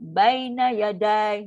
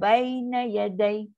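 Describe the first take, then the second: First: The final syllable is drawn out long. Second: The final syllable is kept short and falls. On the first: The speaker calls it wrong. "Jangan baina yadai. Ha, tu salah lah pula. Itu dah jadi panjang" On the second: The speaker calls it right. "So kita baca Quran"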